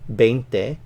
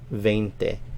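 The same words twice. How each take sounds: First: The first consonant is a hard English-like B. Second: The first consonant is a softer, gentler B. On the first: "it's a little harder and sounds more like a V, a B, an English B" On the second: "it's a little softer"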